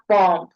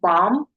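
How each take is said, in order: First: A B sound is heard at the end. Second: The word ends with an M sound. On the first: The speaker calls it wrong. "not bomb" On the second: The speaker calls it right. "we're saying bomb"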